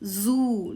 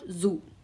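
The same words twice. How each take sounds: First: The vowel is long. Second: The vowel is short. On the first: The speaker calls it right. "it's give us long sound" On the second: The speaker calls it wrong. "not zoo"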